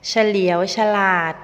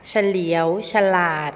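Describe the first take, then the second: First: เฉลียวฉลาด read out as the written headword, loud; word as written. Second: เฉลียวฉลาด sounded as ฉะ-เหลียว-ฉะ-หลาด, with a short ฉะ before each syllable; reading pronunciation. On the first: Teacher showing students the written form, loud and clear. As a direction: say เฉลียวฉลาด first as the spelled word before its reading. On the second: Teacher giving students the spoken reading of the word. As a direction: read เฉลียวฉลาด with the added อะ in each front syllable. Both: Shown as a demonstration. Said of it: "อ่านว่า".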